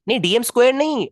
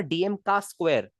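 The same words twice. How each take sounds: First: Said in the usual way. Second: Slow, with the word का leaned on; slow down and lean on का in DM का square; stress on का. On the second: Shown as a demonstration. Teacher corrects a student and leans on का. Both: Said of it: "अरे DM का square यार".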